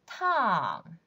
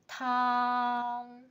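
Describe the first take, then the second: First: The pitch falls sharply from high. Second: The pitch stays high and level. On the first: "Fourth tone" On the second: "First tone"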